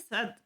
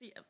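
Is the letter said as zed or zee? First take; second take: zed; zee. First: The letter name ends in a d sound. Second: The letter name ends in an ee sound. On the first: This is the speaker's own usual way. "I say set" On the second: This is the other possible way. "Or is it C?"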